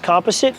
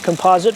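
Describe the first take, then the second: First: It is said with a non-American pronunciation. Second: It is said with an American pronunciation.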